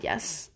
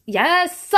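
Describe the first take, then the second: First: A soft, almost breathed yes; quiet yes. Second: A higher, louder burst of "Yes!"; excited yes. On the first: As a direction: say it low, to yourself first. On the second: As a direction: jump on it with real excitement. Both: Real, not acted. Rising excitement over Sesame Street.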